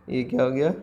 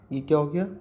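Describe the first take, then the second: First: Asked again through a laugh; amused retake of the question. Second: Said in the usual way. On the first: Shown as a demonstration. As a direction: laugh as you repeat the question.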